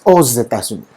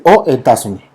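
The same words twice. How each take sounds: First: "aux États-Unis" enlazado, "os-etasuní"; con alianza fonética. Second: "aux États-Unis" sin enlace, "o etasuní"; sin alianza fonética. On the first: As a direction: haz sonar la x de "aux" pegada a "États". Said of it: "Ok, hacemos una alianza fonética". (corrige ligando "aux États-Unis" con sonido de s) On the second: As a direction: separa "aux" de "États", con la x muda. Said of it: "Si yo no puedo decir". (di "aux États-Unis" mal, como "o" más vocal) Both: Shown as a demonstration.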